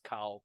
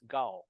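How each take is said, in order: First: The name begins with a K sound. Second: The name begins with a G sound. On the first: This is the adapted pronunciation the name is known by. "I'm known as Cow" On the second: This is the original pronunciation of the name. "if you pronounce a Hmong, it's Gao. Gao with the G"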